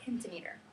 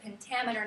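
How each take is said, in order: First: The stress falls on a syllable other than 'tam'. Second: The stress falls on the syllable 'tam'. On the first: The speaker calls it wrong. "not pentameter" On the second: The speaker calls it right. "we pronounce it pentameter"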